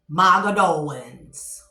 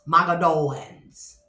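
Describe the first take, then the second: First: The name is said as Mogadowans. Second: The name is said as Mogadowans.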